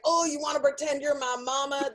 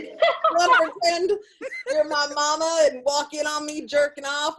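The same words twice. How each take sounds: First: Lightly Southern caller; Southern accent. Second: Said in the usual way. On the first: Retold or imitated. Caller asking the operator to role-play, light Southern accent. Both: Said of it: "They're not all Southern like you".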